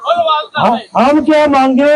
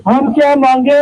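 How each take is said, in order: First: Calling out a chant to the crowd; first slogan call, building up; booming political rally speech. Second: Shouted slogan call; booming political rally speech. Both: Real, not acted. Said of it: "मेरे नारों का जवाब देंगे".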